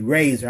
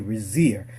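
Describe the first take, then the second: First: The second syllable sounds like 'zor'. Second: The second syllable sounds like 'zeer'. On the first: "You all may want to say Razor" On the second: "I like to say Razir because he's got that E in there"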